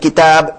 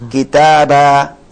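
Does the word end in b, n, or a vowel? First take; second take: b; vowel. First: The word ends on a bare b sound. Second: The word ends on a short vowel. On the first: The speaker calls it wrong. "bukan kitab disukunkan" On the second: The speaker calls it right. "Kalau dia tan fathah dibaca harakat satu"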